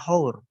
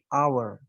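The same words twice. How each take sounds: First: The word starts with an h sound. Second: The word starts with a vowel sound. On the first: The speaker calls it wrong. "Ini membacanya bukan hour" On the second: The speaker calls it right. "tapi hour. ... Pengucapannya terlihat seperti menggunakan huruf hidup"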